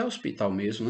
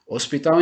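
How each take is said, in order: First: "hospital" in Portuguese with a silent h; Portuguese pronunciation. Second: "hospital" with a breathy English h at the start; English h sound. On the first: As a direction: start "hospital" straight on the o, Portuguese style. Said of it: "hospital em português é hospital mesmo". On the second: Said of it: "Hospital em inglês eu pronuncio hospital". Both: Shown as a demonstration.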